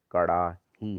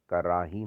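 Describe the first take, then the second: First: कड़ाही with a curled-tongue flap; correct ड़. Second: कराही with plain r; wrong r. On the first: Teacher correcting it, कड़ाही with retroflex flap. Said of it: "होता है". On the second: Teacher showing the error, कराही with plain r. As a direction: say कराही with tapped r. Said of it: "नहीं होता". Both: Shown as a demonstration.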